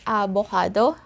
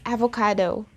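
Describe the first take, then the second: First: It is said with a Tagalog pronunciation. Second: It is said with an English pronunciation. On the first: "in Tagalog, we say avocado" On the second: "So in English, it's avocado"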